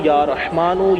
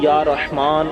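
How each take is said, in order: First: The name ends with an added u vowel. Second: The name ends on a consonant without vowel. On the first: The recitation continues without stopping. "लगातार पढ़ेंगे तो या रहमानु या रहमानु इस तरह से पढ़ेंगे" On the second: The recitation stops here. "जहां रुकेंगे वहां या रहमान पढ़ेंगे"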